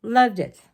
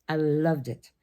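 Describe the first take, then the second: First: "Loved" punched louder and higher; emphatic repeat. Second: Said in the usual way. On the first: Real, not acted. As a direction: hit "Loved" hard with a falling tune.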